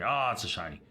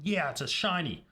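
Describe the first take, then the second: First: It sounds let down and negative. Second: It sounds happy and excited.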